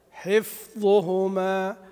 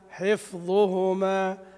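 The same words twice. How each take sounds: The two takes are said the same way.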